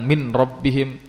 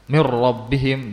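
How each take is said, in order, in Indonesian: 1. Huruf n diucapkan jelas sebelum r. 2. Huruf n menyatu sepenuhnya dengan r setelahnya. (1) "tapi dia izharkan" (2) "di sini hukumnya idgham"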